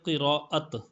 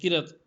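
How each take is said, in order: First: The word is said fully with a long vowel. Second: The word is clipped to a short two-syllable form. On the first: The speaker calls it right. "असल लफ्ज़ है क़िराअत" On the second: The speaker calls it wrong. "किरत ये गलत है"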